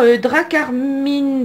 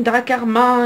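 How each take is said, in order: First: "Dracarmine" read slowly with a final e sound; mispronounced name. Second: "Dracarmin" said quickly with a nasal ending; corrected name. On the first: Card opener stumbling over a new card name, slow and unsure. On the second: Card opener correcting her reading of the name, brisk. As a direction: settle on "Dracarmin" as the fix. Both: Shown as a demonstration. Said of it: "excusez-moi pour la prononciation".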